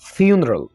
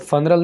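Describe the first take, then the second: First: The first syllable sounds like 'fyoo'. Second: The first syllable sounds like 'fun'. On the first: The speaker calls it right. "फिर बोल रहा हूं" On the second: The speaker calls it wrong. "इसको फनरल नहीं बोलना"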